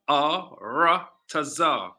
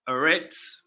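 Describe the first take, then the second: First: The word is said with four syllables. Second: The word is said with two syllables. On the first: The speaker calls it right. "it should be pronounced Ar Ratazar" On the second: The speaker calls it wrong. "they pronounce it Eretz"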